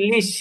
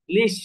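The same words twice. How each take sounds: First: লিশ cut off sharply on the শ; closed syllable লিশ braked short; clipped closed syllable. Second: লিশ said short and stopped on শ; লিশ with an abrupt end; clipped closed syllable again. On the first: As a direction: stop dead at the end of লিশ. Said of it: "এরপরে আর আমি টানতে পারতেছি না". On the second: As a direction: brake hard after লিশ. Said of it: "থেমে যেতে হচ্ছে". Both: Shown as a demonstration.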